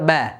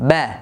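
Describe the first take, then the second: Both takes have the same delivery.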